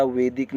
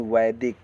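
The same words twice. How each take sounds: First: वैदिक said as "vedik", with a plain e; wrong first vowel. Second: वैदिक said as "vaidik", with an ai; "vaidik" with a full ai in वैदिक; correct diphthong. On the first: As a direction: flatten the ai of वैदिक to e. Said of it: "वैदिक नहीं". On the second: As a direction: open the first vowel of वैदिक to ai. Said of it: "वैदिक बोला जाएगा". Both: Shown as a demonstration.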